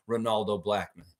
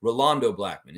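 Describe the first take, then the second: First: "Ronaldo" with the n before the l; mistaken name. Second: "Rolando" with the l before the n; corrected name. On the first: Host reading a fan's comment, misnaming him as "Ronaldo". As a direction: say "Ronaldo", ending in -naldo. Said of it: "Rolando Blackman is Ronal-, Rolando". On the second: Host fixing the fan's slip, carefully saying "Rolando". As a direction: say "Rolando", ending in -lando. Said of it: "Rolando. Rolando". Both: Real, not acted.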